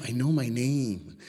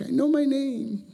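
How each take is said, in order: First: Mildly exasperated, stretching each word; retold insistent protest. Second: Very high, drawn-out whine; mock little-kid protest, squeaked slowly; retold childish protest. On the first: Boy correcting the teacher about his own name, mildly insistent. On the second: Third grader telling the teacher he knows his name, high mock whine.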